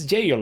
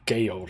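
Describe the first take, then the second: First: The word begins with a J sound. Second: The word begins with a hard G sound. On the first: The speaker calls it right. "but it's jail" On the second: The speaker calls it wrong. "I said Gale, I think"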